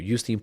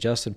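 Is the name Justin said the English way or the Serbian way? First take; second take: Serbian; English. First: The name is said with Serbian pronunciation. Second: The name is said with English pronunciation.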